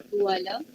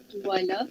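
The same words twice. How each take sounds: No difference in how they are said.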